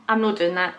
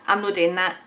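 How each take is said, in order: No difference in how they are said.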